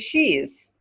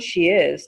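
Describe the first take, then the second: First: It is said as one contracted word. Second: It is said as two full words. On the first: "turns to she's" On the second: "The next one, she is"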